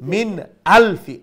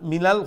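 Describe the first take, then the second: First: The glottal stop is pronounced clearly and strongly. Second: The glottal stop is dropped, words run together. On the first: The speaker calls it right. "রে স্ট্রংলি উচ্চারণ করবা" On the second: The speaker calls it wrong. "আর নাইলে হামজা বাদ পড়ে যায় মিনাল মিনাল"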